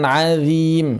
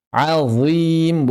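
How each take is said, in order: First: "azim" thinned to "adzim"; mistaken thin dhal. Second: "Azim" with a thick, dark z; heavy-zha "Azim", drawn out; correct heavy zha. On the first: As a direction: lighten the z in "azim" to a tongue-tip dh. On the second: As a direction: make the z in "Azim" emphatic. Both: Shown as a demonstration.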